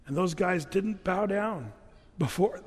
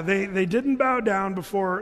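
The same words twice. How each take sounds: First: Slow cartoon storytelling delivery; a hint of a kids' cartoon narrator, drawn out; lightly voiced Veggie Tales, slow. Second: Said in the usual way. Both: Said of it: "a little too much Veggie Tales".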